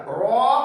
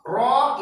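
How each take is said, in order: First: The ra is heavy, with rounded full sound. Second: The ra is heavy, with rounded full sound.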